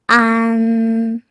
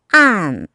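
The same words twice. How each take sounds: First: The pitch stays high and level. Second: The pitch falls sharply from high to low.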